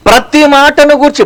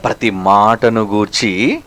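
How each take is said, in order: First: మాటను hit high and hard; emphatic preaching. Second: Low, soft and slow, ప్రతి మాటను గూర్చి; hushed repeat. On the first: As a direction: raise the voice on ప్రతి మాటను గూర్చి. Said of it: "ప్రతి మాట, every word counts". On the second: Preacher repeating the verse to his flock, low and slow. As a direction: drop to a grave near-murmur. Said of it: "every word counts". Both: Shown as a demonstration.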